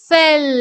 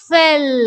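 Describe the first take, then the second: No difference in how they are said.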